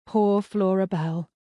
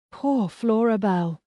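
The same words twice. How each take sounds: First: Slow, stunned repetition of the name; dazed murmur. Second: Slow, stunned, a little higher on poor; dazed echo. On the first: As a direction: say it slowly, as if in shock. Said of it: "the only words that would come to my head repeated themselves over and over". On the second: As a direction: repeat it slowly, still in shock. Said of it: "repeated themselves over and over again". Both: A narrator's reading.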